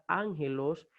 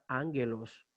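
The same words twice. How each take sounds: First: The g is soft, like a throaty h. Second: The g is hard, as in go. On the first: This is how the transliteration reads in Spanish. The speaker calls it wrong. "con una G va a sonar ángelos" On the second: This is the original Greek sound. The speaker calls it right. "no va a sonar ángelos"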